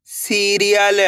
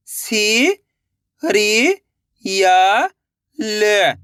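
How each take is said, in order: First: सीरियल joined as one word; blended word. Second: सी, री, या, ल held, with gaps; syllable by syllable. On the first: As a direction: say सीरियल whole, without breaks. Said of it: "तो मिलके बन जाएगा". (सीरियल मिलाकर एक शब्द में) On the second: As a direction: sound out सी, री, या, ल one by one. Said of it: "एक एक अक्षर का उच्चारण करके". (सी, री, या, ल अलग-अलग) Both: Shown as a demonstration.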